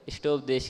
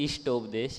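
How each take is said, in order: First: The first vowel is a short i. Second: The first vowel is a long ee. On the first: The speaker calls it right. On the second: The speaker calls it wrong.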